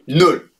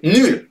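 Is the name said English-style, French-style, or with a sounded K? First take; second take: English-style; French-style. First: It is said like the English word null. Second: It is said like the French word nul. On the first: The speaker calls it right. "On dit Knull" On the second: The speaker calls it wrong. "ça se dit pas non plus nul"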